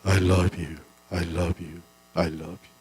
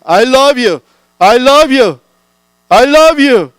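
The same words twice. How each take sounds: First: Lower, softer echo dying away; the hills answering back, fading. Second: High, loud shout of love; child shouting love from the hilltop. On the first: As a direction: let it fade like it comes back from far hills. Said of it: "여기저기서 소리가 들려옵니다". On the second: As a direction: call it out across the hill. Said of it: "애가 소리칩니다". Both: Acted.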